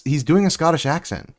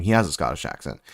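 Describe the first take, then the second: First: Doing leaned on, falling off after it; pushing the word doing before taking it back; stress on doing. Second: Has stressed as the correction; a correcting stress on has, a bit lower. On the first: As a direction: hit the word doing, then correct yourself. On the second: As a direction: land firmly on the word has. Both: Real, not acted. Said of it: "Well, not doing".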